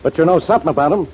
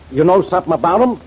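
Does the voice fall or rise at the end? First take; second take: fall; rise. First: It is said as a statement, falling. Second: It is said as a question, rising.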